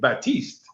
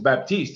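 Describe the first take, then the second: First: The P in the middle is silent. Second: The P in the middle is pronounced. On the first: This is the French way of saying the name. The speaker calls it right. "You should say Baptiste" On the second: This is the English way of saying the name. The speaker calls it wrong. "how you tell people your name is Baptiste?"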